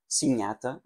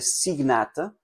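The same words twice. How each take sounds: First: It is said with the ecclesiastical pronunciation. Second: It is said without the ecclesiastical pronunciation.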